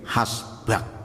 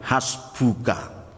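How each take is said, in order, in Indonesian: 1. Vokal akhir bergeser ke dalam menjadi a. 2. Kata ini berakhir dengan vokal akhir yang penuh. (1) "harokat depannya diundurkan menjadi hasbak" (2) "Tapi aslinya adalah hasbuka"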